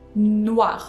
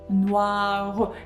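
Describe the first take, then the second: First: The word ends right on the r sound. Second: A short vowel follows the final r sound. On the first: This is the everyday spoken form. "it doesn't change pronunciation" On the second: This form is used in songs to fit the rhythm. "this e will be kind of pronounced"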